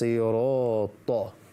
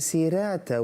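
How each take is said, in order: First: The first consonant is heavy, with a full mouth. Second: The first consonant is light, with an empty mouth. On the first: The speaker calls it right. "when it's" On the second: The speaker calls it wrong. "They say"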